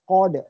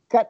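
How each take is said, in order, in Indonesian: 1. Konsonan akhir berakhir dengan sedikit pantulan. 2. Konsonan akhir berhenti datar tanpa pantulan. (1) "Huruf dal tu qolah" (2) "tak nak"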